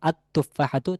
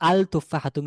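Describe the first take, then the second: First: The L merges into a doubled T sound. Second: The L of the article is clearly pronounced. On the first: The speaker calls it right. "হবে আত তুফাহাতু" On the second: The speaker calls it wrong. "হওয়ার কথা ছিল আল তুফাহাতু, কিন্তু না, আল হবে না"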